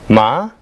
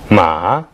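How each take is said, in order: First: The pitch rises from mid to high. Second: The pitch dips low, then rises. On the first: It means hemp. "meaning hemp" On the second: It means horse. "meaning horse"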